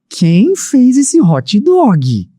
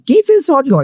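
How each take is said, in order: First: It is asked in a calm, gentle tone. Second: It is asked in a loud, aggressive tone. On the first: The speaker is simply curious who made it. "E como seria se ele tivesse falado" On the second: The speaker seems angry and threatening. "um tom alto, um tom agressivo"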